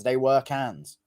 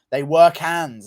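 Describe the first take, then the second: First: Said in the usual way. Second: They were cans, with "were" pushed louder; loud emphatic statement. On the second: Shown as a demonstration. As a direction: lean hard on "were".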